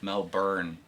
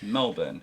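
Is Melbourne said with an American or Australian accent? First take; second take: American; Australian. First: It is said with an American pronunciation. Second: It is said with an Australian pronunciation. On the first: The speaker calls it wrong. "that's the American" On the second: The speaker calls it right. "It's Melbourne"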